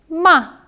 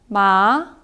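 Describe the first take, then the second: First: The pitch falls sharply from high. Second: The pitch rises from middle to high. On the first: "사성은 어, 차, 뚝 떨어지는 소리입니다" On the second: "이성은 올라가는 소리입니다"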